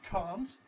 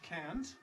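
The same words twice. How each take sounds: First: It is said in a British accent. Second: It is said in an American accent. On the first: "the usual contraction can't" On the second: "it's worse in American English"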